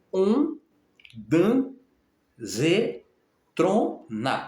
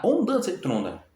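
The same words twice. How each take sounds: First: Ondansetrona sounded out syllable by syllable, very slow; sounding out words. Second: Said in the usual way. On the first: Shown as a demonstration. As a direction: say Ondansetrona broken into each syllable, On-dan-se-tro-na, drawn out. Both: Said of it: "sílaba por sílaba".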